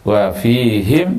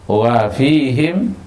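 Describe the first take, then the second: The two takes are said the same way.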